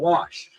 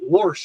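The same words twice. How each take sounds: First: The word is said with no r sound. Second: An r sound is inserted before the sh. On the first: The speaker calls it right. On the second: The speaker calls it wrong.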